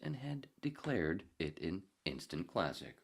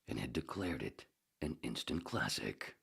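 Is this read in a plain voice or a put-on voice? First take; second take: plain; put-on. First: It is read in a plain, ordinary voice. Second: It is read in a different, put-on voice. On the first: The speaker calls it wrong. "I should have done it in the other voice" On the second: The speaker calls it right. "the other voice"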